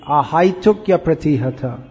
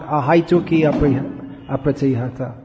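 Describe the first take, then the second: First: The final i glides into the next a as ya. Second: The final i stays separate from the next a. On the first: The speaker calls it right. "It should be" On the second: The speaker calls it wrong.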